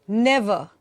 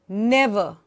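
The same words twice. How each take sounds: No difference in how they are said.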